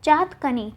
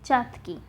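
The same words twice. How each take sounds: First: चातकनी with an added nee; the mistaken nee closing चातकनी; wrong form चातकनी. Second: चातकी with no nee; correct form चातकी. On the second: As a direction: say चातकी ending in kee. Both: Shown as a demonstration. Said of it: "चातकनी नहीं होगा".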